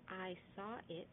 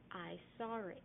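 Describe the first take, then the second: First: Saw and it are said without an R. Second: An R sound links saw and it. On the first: "instead of" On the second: "a Bostonian might say"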